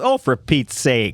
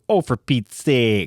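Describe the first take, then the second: First: The vowel in 'sake' is short and plain. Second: The vowel in 'sake' is drawn out long.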